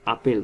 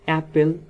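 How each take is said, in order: First: The first vowel is an open 'aa' sound. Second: The first vowel is a flat 'ae' sound. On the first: "কিন্তু আমরা মুখে বলার সময় কি বলি?" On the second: "তাহলে এটার বাংলাটা কিরকম হয়?"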